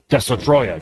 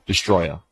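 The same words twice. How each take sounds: First: The name is said with a Japanese pronunciation. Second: The name is said with an English pronunciation. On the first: This is the original Japanese name. "pretend to speak Japanese and say Destroya" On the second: This is how the name is known in America. "that's the English version of the name"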